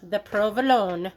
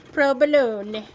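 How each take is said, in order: First: Said in the usual way. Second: Provolone said louder, with a b-like v; Italian-style provolone. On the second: Shown as a demonstration. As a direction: Provolone rolled out with gusto.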